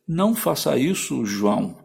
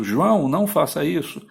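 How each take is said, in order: First: "Não faça isso" first, then "João" tacked on after a short break with a falling tune; a command with "João" added last; vocative at the end. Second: Calling João by name first; vocative at the start. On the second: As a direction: open with "João" as a call, raised in pitch, then "não faça isso". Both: Shown as a demonstration. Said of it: "você poderia ter colocado no começo".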